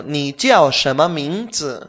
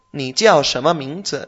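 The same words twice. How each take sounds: First: Ni jiao shema mingzi slow, jiao falling; slow model phrase. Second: Ni jiao shema mingzi a little slow, rising on jiao; model phrase, rising end. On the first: Teacher models the question slowly for the student. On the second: Teacher repeats the question with a rising end. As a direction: ask it with a lift at the end. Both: Shown as a demonstration.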